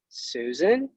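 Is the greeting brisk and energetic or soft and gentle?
gentle. It is said softly and gently. The caller matches the listener's manner. The speaker calls it right. "mirroring her tone"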